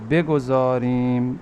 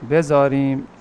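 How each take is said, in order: First: The word is said with the g sound. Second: The word is said without the g sound. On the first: This is the full, careful form. "बेगुज़ारिम बिल्कुल सही है" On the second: This is the everyday spoken form. "गाफ हाज़िफ हो जाएगा"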